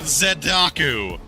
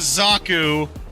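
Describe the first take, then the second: First: It begins with the syllable zed. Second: It begins with a plain z sound. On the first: "forcibly say the Canadian Z" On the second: "instead of a Zaku"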